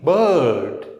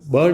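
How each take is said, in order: First: The vowel sound is drawn out long. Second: The vowel sound is short. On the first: The speaker calls it right. "उसको आपको लंबा बोलना पड़ेगा" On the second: The speaker calls it wrong. "बर्ड नहीं है"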